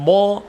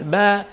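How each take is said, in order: First: The ba sound is heavy and thick. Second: The ba sound is light and thin. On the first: The speaker calls it wrong. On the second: The speaker calls it right. "pastikan dibaca tipis"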